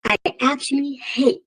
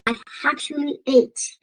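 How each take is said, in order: First: "hate" with a clear breathy h at the start. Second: "hate" said as "ate", no h sound; African accent, dropped h. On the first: Shown as a demonstration. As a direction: sound the h in "hate" fully. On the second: Real, not acted. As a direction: drop the h: "I actually ate". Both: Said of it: "my African accent is getting in the way".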